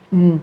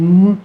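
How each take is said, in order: First: A hesitant mm sliding upward; rising mm. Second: A hesitant mm sliding downward; falling mm. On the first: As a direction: hum mm with the pitch rising. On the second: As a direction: hum mm with the pitch falling. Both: Shown as a demonstration.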